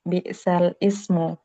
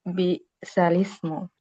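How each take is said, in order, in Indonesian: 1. Kedua kata itu diucapkan terpisah. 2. Kedua kata itu menyambung melalui huruf lam. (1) "ini awalnya di bacaannya itu" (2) "dipindahkan ke huruf lam menjadi bi'salismu"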